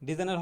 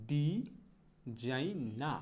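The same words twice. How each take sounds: First: Said in the usual way. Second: ডিজাইনা split slowly as "di... zai... naa"; slow model pronunciation. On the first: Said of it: "ডিজাইনার হবে না". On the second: Shown as a demonstration. Teacher modelling designer for learners, slow r-less ডিজাইনা. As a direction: stretch ডিজাইনা, open আ ending with no r. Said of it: "সঠিক উচ্চারণটা হবে হচ্ছে".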